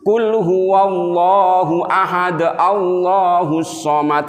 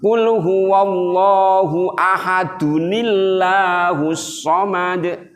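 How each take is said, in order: First: Ahad ends clipped, then Allahus somad follows. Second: Ahad runs into Allahus as ahadunillahus. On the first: The speaker calls it wrong. "itu salah" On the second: The speaker calls it right. "Yang benar gimana?"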